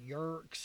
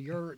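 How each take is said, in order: First: The word ends with a 'ks' sound. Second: The word ends with a 't' sound. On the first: The speaker calls it wrong. "people mispronounce it sometimes, like yurks" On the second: The speaker calls it right. "no, a yurt"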